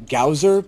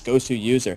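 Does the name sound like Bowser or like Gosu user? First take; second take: Bowser; Gosu user. First: The name is said to rhyme with Bowser. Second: The name is said as Gosu user. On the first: The speaker calls it wrong. "It looks like it should be Gowser, pronounced like Bowser, but it's not" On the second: The speaker calls it right. "It's Gosu user"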